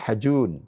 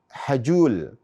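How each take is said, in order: First: The word ends with an N sound. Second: The word ends with an L sound. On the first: The speaker calls it right. "Yang betul ada Ri'al Hajun" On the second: The speaker calls it wrong. "Orang awam mengatakan Hajul, tapi ini tidak benar"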